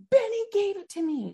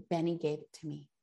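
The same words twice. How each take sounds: First: Put-on much higher, insisting child repeat; insistent daughter. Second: Softer, lower, lightly voiced tearful child; a hint of a little girl crying; tearful daughter. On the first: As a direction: pitch it up high like a stubborn kid. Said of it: "She was like". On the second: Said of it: "she starts to cry".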